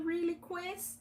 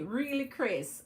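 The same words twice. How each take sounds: First: Said in the usual way. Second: Slow, careful Really, Chris; Really, Chris taken slow and deliberate; said slowly. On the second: Shown as a demonstration. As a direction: spell out Really, Chris slowly so the name doesn't trip. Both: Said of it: "you're a tongue twister for me".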